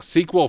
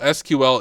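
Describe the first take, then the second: First: It is said as one word, sequel. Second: It is said as three separate letters. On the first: The speaker calls it right. "flows better for me" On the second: The speaker calls it wrong. "it's too long"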